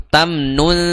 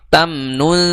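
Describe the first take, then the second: No difference in how they are said.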